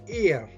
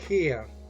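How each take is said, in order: First: The word begins with a vowel, no H sound. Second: The word begins with a pronounced H sound. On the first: The speaker calls it right. "You say heir like air" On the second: The speaker calls it wrong. "You don't say hair"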